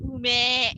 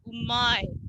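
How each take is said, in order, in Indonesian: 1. Kata ini diakhiri dengan vokal 'e' biasa. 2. Kata ini diakhiri dengan diftong 'ai'. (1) "kalau laki-laki biasanya mereka ngomongnya ume" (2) "biasanya mereka bilang umai"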